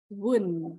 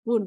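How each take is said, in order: First: Won read as wun, the short form of will not; right reading. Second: Won read like the English word won; wrong reading. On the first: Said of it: "bukan won ya". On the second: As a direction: says won as in winning, the mistaken way. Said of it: "tapi bacanya won". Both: Shown as a demonstration.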